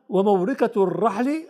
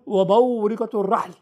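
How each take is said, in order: First: A light pause with the final vowel kept. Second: A full stop with the final vowel dropped. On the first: The reader pauses briefly and then continues. "فوقف ووصل لكن سكتة لطيفة" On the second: The reader stops completely at this word. "أما لو وقف فيقول وموركة الرحل"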